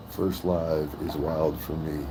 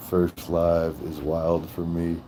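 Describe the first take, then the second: No difference in how they are said.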